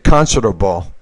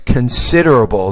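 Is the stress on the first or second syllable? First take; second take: first; second. First: The stress is on the first syllable. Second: The stress is on the second syllable. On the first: The speaker calls it wrong. "You said considerable" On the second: The speaker calls it right. "the stress here is on the second syllable, not the first"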